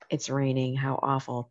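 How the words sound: It is said in a gloomy, Eeyore-like way.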